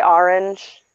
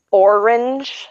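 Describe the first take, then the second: First: "orange" said as "AR-inj"; own regional orange. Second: "orange" with a rounded "or", slow and higher; careful standard orange. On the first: Showing how she says it, "orange" as "AR-inj". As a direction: open the first vowel of "orange" to "ar". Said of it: "I say orange". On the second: Trying the word she can't say, careful "OR-inj" for "orange". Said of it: "I can't say the word orange". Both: Shown as a demonstration.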